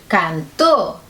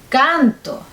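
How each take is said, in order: First: The stress is on the last syllable. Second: The stress is on the first syllable. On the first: "El énfasis está al final, en la O" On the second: "no en usted canto"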